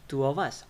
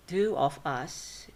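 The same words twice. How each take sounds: First: Two of us run together as two-uv-us; weakened with schwa. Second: Two of us word by word, full o in of; full vowels. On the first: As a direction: reduce of to schwa and link it to us. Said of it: "By using schwa". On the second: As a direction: keep of separate and unreduced in two of us. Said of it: "Of become of". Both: Shown as a demonstration.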